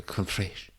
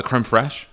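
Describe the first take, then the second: First: Softer creme fraiche, botched French accent; attempted French accent. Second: Said in the usual way. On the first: Shown as a demonstration. Unsure how to say it, softly botched French accent. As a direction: try a French accent that slips toward Mexican. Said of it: "I don't know why I gave a Mexican accent". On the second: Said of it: "I don't know how to say it".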